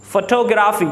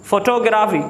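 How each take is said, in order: Both takes have the same delivery.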